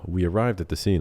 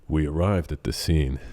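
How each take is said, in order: First: It is said in a plain conversational voice. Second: It is said in a deep, dramatic narrator voice. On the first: "instead of saying like" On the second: "whenever I do the narration, I'll be like"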